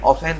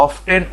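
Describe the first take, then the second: First: Often as "o-fen"; often pronounced "off-en"; silent t. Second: Often as "of-ten"; often with the t pronounced; sounded t. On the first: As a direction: say often without the t. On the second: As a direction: say often with a clear t. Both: Shown as a demonstration. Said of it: "often দুটোই সঠিক".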